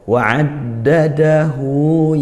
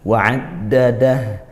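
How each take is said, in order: First: The word ends with a lengthened hu vowel. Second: The word ends in a short silent h. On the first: The reader continues into the next verse. "Kalau wasol atau menyambung ayat dua ketiga" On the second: The reader stops at the end of the verse. "Tapi kalau waqaf mati"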